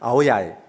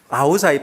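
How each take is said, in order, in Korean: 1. 남부 베트남 억양으로 발음해요. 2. 하노이 북부 억양으로 발음해요. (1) "남쪽에는 아오야이" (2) "하노이는 아오자이라 발음하고요"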